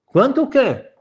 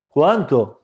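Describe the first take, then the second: First: High, playing-dumb groom; feigned innocence. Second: Said in the usual way. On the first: Groom playing dumb when the rabbi demands payment, high and innocent. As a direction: pitch it up as if he has no idea.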